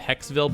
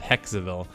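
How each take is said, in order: First: The name is said with two syllables. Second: The name is said with three syllables. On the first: "I always pronounce it Hexville" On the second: "in the animation they pronounce it Hexaville"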